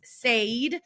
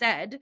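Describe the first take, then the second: First: The vowel sounds like the one in paid. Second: The vowel sounds like the one in bed. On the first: This is how the word used to be said. "used to be pronounced said, like paid" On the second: This is how the word is said today. "is pronounced said"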